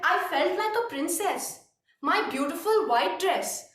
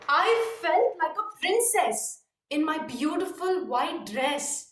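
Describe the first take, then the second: First: The pitch stays flat throughout. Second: The pitch goes up and then down. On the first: The speaker calls it wrong. "it was a monotonous tone" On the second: The speaker calls it right. "Up and then down, not constantly"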